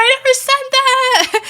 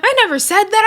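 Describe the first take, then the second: First: Never stressed, even higher squeal; exaggerated denial. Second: High put-on whiny denial; mock denial. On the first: Tommy Lee insisting to Tavy Baby, stress on never, very high. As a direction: push the word never up into a squeal. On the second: Tommy Lee denying to Tavy Baby, high mocking whine. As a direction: squeak out a fake innocent denial.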